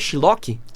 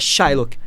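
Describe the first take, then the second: First: The name is pronounced in a distorted way. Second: The name is said clearly with strong emphasis. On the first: The judge gets the name wrong. The speaker calls it wrong. "Que ela erra o nome" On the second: He insists on his real name. The speaker calls it right.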